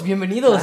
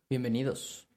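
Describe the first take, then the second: First: It is said with excitement and energy. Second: It is said flatly, without much energy.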